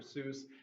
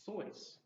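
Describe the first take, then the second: First: The vowel sounds like 'oo', rhyming with goose. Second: The vowel sounds like 'oi', rhyming with noise. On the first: This is how people unaware of the background said it. The speaker calls it wrong. "people who didn't know the Swiss background and how to pronounce it kept" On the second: This is the original Swiss pronunciation. The speaker calls it right. "he was pronouncing this middle name like his name would be pronounced in Swiss"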